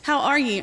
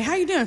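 First: A genuine how are you, meant fully; earnest greeting. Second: A light, high, sing-song how are you doing; breezy passing greeting. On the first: Showing the congregation how volunteers really ask, earnestly. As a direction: ask like you truly want the answer. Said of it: "Not there. They're not messing around". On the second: Mimicking the throwaway greeting people give and walk on. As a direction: toss it off in passing. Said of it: "you say ... and you walk on". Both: Retold or imitated.

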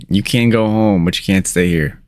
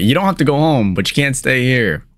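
First: Said in the usual way. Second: Higher, faster corrected catchphrase; corrected quote. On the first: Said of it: "Or how does it go?". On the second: Shown as a demonstration. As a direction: blurt the right version quickly. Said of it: "Oh, wait".

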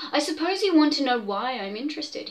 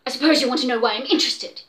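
First: Said in the usual way. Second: Louder and fast, biting it off; snapping. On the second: Acted. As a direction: snap it at the doctor. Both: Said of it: "he snapped".

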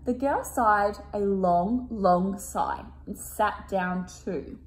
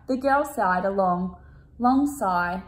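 First: Slow careful reread. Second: Said in the usual way. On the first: Shown as a demonstration. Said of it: "I'm gonna read that one again". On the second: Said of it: "Oops, I'm gonna read that one again".

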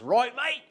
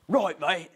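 First: High, loud, hammed-up Aussie question; broad Australian accent, pitched way up; Australian Crocodile Hunter. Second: Imitating a small boy's best Aussie; short, louder reply in put-on Australian; child's Australian accent. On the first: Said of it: "I'd start out like this". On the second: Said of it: "in his best little Australian".

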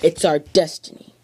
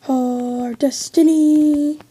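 First: Said in the usual way. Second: Drawn-out, solemn and slow, higher; grand mock-epic delivery; dramatic slow. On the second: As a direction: savour each word like a prophecy. Repeats destiny line dramatically.

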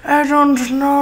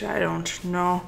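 First: Put-on voice. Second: Quiet mumble. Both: Shown as a demonstration. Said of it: "I say".

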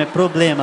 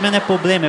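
First: "problema" with the first r sounded; correct pronunciation. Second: "problema" said as "poblema"; mispronounced "problema". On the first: Son correcting mãe, "problema" with its r in place. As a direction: pronounce the "pro" in "problema" fully. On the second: Son quoting mãe's mistake, "problema" without its first r. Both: Shown as a demonstration.

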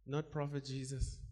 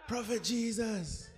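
First: Said in the usual way. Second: Slow, higher mocking "Prophet Jesus" with a laugh; mock formal title. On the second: Shown as a demonstration. Preacher mocking people who call Jesus prophet, slow and high. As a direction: drag out the stiff title "Prophet Jesus" in mockery.

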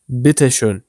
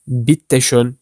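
First: Bitte schön with one short T, 'bi-te schön'; natural single T. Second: Bitte schön with a long double T, 'bit-te schön'; doubled T. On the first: Teacher models natural German for learners, bitte schön with short T. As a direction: run lightly through the T in bitte schön. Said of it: "daha doğal duyulur". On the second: Teacher shows learners the unnatural take, bitte schön with doubled T. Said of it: "demek yerine". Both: Shown as a demonstration.

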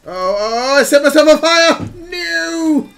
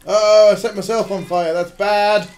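First: High, loud, fast cry of alarm; panicked yell. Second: Raised, louder dismayed exclamation; mild alarm. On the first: Player on fire and panicking, panicked yell. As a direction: build into a high, frantic shout. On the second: Player noticing they set themselves on fire, mild alarm. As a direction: react with contained alarm, a bit loud. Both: Real, not acted.

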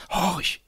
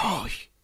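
First: Higher, urgent call to listen; sudden excitement. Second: Hushed, solemn and higher; a reverent, quiet listen. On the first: Johannes grabs Christiane's arm, urgently excited. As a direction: grip her arm and call out, thrilled. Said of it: "von einer plötzlichen Erregung übermannt". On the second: Johannes hushes Christiane, solemn and soft. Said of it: "sagte er feierlich". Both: Acted.

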